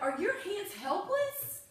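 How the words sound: It is said in a frustrated, exasperated tone. The children are being scolded for not tidying up. "She's frustrated with them"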